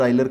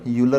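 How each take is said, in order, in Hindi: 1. नाम की शुरुआत 'oy' ध्वनि से होती है। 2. नाम की शुरुआत 'yoo' ध्वनि से होती है। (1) "आइलर शायद बेस्ट प्रोनाउंसिएशन होगा इसका" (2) "यूलर आइलर कुछ भी बोल देते हैं"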